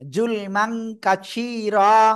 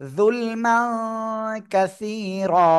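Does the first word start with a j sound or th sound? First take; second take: j sound; th sound. First: The first word starts with a j sound. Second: The first word starts with a th sound. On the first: The speaker calls it wrong. "এরকম পড়ে অনেকে, তাই না? এরকম পড়া যাবে না।" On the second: The speaker calls it right. "এই যে জিহ্বার আগায় উপরে দুই দাঁতের আগার সাথে লাগাতে হবে।"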